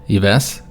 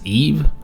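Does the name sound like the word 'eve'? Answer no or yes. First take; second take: no; yes. First: The name does not sound like the word 'eve'. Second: The name sounds like the English word 'eve'. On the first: The speaker calls it wrong. "as I've been pronouncing it" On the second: The speaker calls it right. "apparently the king's name is pronounced Eve"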